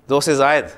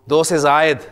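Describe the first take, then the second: Both takes have the same delivery.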